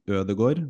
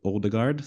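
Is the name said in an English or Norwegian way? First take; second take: Norwegian; English. First: The name has a Norwegian pronunciation. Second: The name has an English pronunciation. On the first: The speaker calls it right. "another guy named Ødegaard" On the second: The speaker calls it wrong. "not Odegaard"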